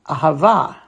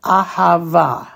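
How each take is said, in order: First: Said in the usual way. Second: "Ahava" said slowly, a-ha-VA, each syllable clear; slow model word. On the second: Shown as a demonstration. Teacher modeling the new word slowly for students. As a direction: spell out "Ahava" slowly, last syllable accented. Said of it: "put that to, those three syllables together".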